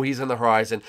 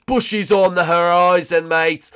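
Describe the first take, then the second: First: Said in the usual way. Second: Loud, high, drawn-out call; hammed-up holler. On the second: Gamer announcing Bushy on the horizon, hammed-up holler. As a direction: holler it slowly like a mock lookout.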